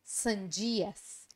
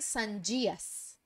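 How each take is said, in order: The two takes are said the same way.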